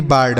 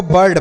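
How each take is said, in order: First: बर्ड with a long "aa", like baard; wrong long vowel. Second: बर्ड with a short "uh" vowel; correct bird pronunciation. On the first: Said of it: "ना कि बर्ड". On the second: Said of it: "मतलब मात्रा नहीं लगाएंगे". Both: Shown as a demonstration.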